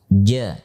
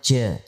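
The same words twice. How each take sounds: First: It is said firmly without extra breath. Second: It is said with breath flowing out. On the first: The speaker calls it right. "kita tidak boleh dominan dengan nafas" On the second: The speaker calls it wrong. "Ada nafas yang mengalir di sana"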